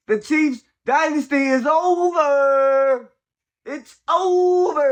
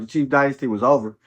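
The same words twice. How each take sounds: First: Drawn-out, much higher mock cry; hammed-up sobbing over the dynasty; mock mourning wail. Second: Said in the usual way. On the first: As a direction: wail it slowly like a fake funeral. Gloating over Chiefs' collapse.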